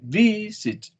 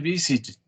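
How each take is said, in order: First: The stress is on the first syllable. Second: The stress is on the second syllable. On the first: The speaker calls it right. "You say visit. ... the stress is in the first syllable" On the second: The speaker calls it wrong. "No, you don't say visit"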